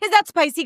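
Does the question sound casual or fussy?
fussy. The question sounds fussy and overly dramatic. The person makes a big deal of disliking spice. The speaker calls it wrong.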